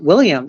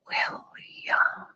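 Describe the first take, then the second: First: The name is said quickly and normally. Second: The name is slowly drawn out.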